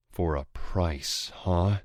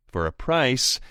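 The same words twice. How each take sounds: First: Snarl. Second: Higher, louder sly bargaining; taunting rival voice. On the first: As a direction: sneer the words back at him. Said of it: "I snarl". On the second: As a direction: dangle the offer slyly. Anton bargains. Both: Acted.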